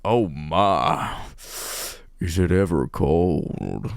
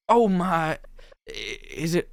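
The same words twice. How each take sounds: First: Low, slow, drawn-out sultry line; found seductive voice. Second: High, uncertain first try; botched flirting line. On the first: Heroine finding her coached flirting voice, mock-sultry. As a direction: sink into a hammed-up purr. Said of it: "Oh, here it is". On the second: Heroine retrying a line she botched, unsure. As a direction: attempt it unsurely in a raised voice. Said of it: "say it wrong?". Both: Acted.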